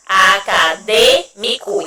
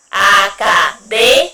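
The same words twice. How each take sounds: First: "Acadêmico" slowed, with the closed "dê" stressed; slow stress demo. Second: Said in the usual way. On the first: Shown as a demonstration. Teacher pointing pupils to the circumflex syllable, slowly. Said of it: "Ó, no D". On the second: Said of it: "Vamos lá?".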